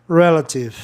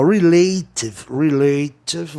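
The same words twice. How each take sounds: First: "relative" as REL-a-tive, short E stressed first; accepted pronunciation. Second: "relative" said slowly with a long stressed AY in the middle; drawn-out mispronunciation. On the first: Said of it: "Ficou bem bacana". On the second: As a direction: drag out "relative" as re-LAY-tive, far too long. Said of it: "você ia demorar demais pra pronunciar". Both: Shown as a demonstration.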